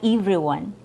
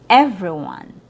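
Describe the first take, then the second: First: The E vowel is a long ee sound. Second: The E vowel is short and relaxed. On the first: The speaker calls it wrong. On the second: The speaker calls it right.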